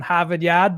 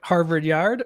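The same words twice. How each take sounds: First: It is said in a Boston accent. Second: It is said in a plain, neutral accent.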